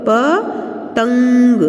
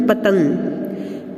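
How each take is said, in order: First: प, a pause, then तंग held through the nose; ringing nasal on तंग; syllable-by-syllable nasal demo. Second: Said in the usual way. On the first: Shown as a demonstration. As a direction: sound out प and तंग separately. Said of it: "हम नासिका से करेंगे". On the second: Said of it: "तो इस तरह से पतंग".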